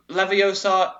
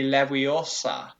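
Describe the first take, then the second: First: "Leviosa" with an English v and long o; English-style "Leviosa"; anglicised pronunciation. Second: "Leviosa" with the v as w; actual Latin pronunciation. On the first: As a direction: say "Leviosa" as lev-ee-OH-sa, pitched up. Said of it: "in terms of actual Latin, is already wrong". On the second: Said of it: "It would be". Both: Shown as a demonstration.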